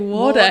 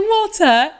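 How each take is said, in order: First: The word is said with an American accent. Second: The word is said with a British accent. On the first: "you've got to say it the American way" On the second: "I'm being stubborn"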